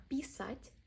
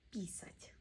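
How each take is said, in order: First: "Писать" with a high, long final А; "Писать", last syllable lifted and held; stressed final syllable. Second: Whispered "писать" with the stress on the last syllable; whispered repeat. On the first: Teacher drilling learners, stress on the end. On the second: Teacher drilling learners, whispered repeat. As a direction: breathe "писать" out with no voice. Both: Shown as a demonstration. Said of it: "Practice drill".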